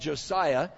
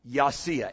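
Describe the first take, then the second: First: The name begins with a J sound. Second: The name begins with a Y sound. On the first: This is the usual English form of the name. The speaker calls it wrong. "because we don't understand the pronunciation, we call him Josiah" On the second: This is the original Hebrew form of the name. The speaker calls it right. "His Hebrew name would be Yasiah"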